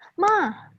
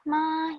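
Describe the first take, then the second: First: The pitch goes from high to low, snapping. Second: The pitch stays flat. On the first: "yang ketiga ma ya tinggi kerendahnya kayak bentak" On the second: "yang pertama ada ma datar aja"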